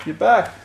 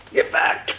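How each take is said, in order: First: Said in the usual way. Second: Whispering. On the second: Real, not acted. Vacuum returns.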